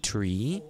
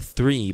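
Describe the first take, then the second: First: "three" said as "tree"; learner's "three", starting with a t; mispronounced three. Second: Said in the usual way. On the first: Retold or imitated. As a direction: drop the th in "three" for a plain t. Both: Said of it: "not three, but three".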